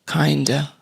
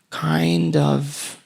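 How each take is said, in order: First: The two words run together into one reduced word. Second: The two words are said separately and fully.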